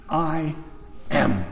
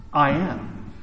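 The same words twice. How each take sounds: First: Much lower, slow and weighty, with a long pause after I; solemn divine voice. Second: Said in the usual way. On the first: Retold or imitated. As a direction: let "I" hang, then drop "am." very low. God's answer repeated slowly.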